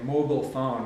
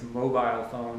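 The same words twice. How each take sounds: First: It is said with an American pronunciation. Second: It is said with a Canadian pronunciation. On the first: The speaker calls it wrong. "you Americans say mobile phone" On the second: The speaker calls it right. "It's mobile phone"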